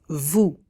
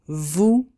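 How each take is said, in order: The two takes are said the same way.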